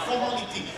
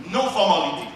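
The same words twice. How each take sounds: First: Formality. said softly and falling; stressed formality. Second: No pushed, formality falling with a laugh; stress on no. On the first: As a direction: drop Formality. with a falling tune. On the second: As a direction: hit the word no before formality. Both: Shown as a demonstration.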